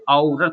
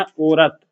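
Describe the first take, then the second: First: औरत opening on औ: "au-rat"; slow, wide औ at the start of औरत; correct reading. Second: औरत as misspelt, with ओ: "o-rat"; the rejected औरत, pure o at the start; wrong reading. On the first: Teacher telling students what we say, औरत with drawn-out औ. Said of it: "औरत बोलते हैं". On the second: Teacher reading the wrong spelling to reject it, औरत with ओ. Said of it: "औरत नहीं". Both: Shown as a demonstration.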